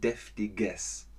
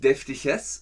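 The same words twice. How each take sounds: First: The g is said as a hard g. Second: The g is said like a soft ch. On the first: The speaker calls it right. "sondern deftiges" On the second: The speaker calls it wrong. "aber nicht deftiges"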